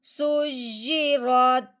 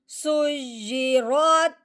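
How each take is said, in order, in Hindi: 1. यह शब्द अंतिम, रुकने वाले लहजे में पढ़ा जाता है। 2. यह शब्द जारी रहने वाले लहजे में पढ़ा जाता है। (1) "आगे वक़फ़" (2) "पहले हमने पढ़ा है"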